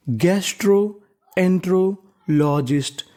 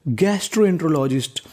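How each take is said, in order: First: gastroenterologist said slowly, piece by piece; slow teaching read. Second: Said in the usual way. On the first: Shown as a demonstration. Teacher sounding out a long word for students, slowly. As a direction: draw out gastroenterologist for learners. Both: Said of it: "sounding out new word".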